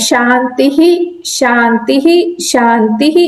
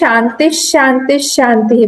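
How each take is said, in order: First: Each word ends with a breathy 'h' sound. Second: Each word ends with a half 'sh' sound. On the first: The speaker calls it wrong. "ये बोलना गलत है" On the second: The speaker calls it right. "It has to be converted टू half श"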